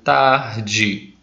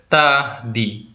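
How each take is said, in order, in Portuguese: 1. O d é falado como africado, tipo dj. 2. O d é falado como oclusivo simples. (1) "Eu fiz ele africado" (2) "se eu fosse ler assim seria tarde"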